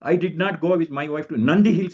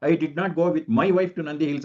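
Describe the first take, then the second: First: The stress falls on "Nandi Hills". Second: The stress falls on "my wife". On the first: "ನಾನು ಬೇರೆ ಕಡೆಗೆ ಹೋಗಿದ್ದೆ, Nandi hills ಹೋಗಿಲ್ಲ ಅಂತ" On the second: "ಮೈ wife ಅನ್ನೋದು ನಾನು ಒತ್ತು ಕೊಟ್ಬಿಟ್ರೆ ಹೇಳಿದಾಗ"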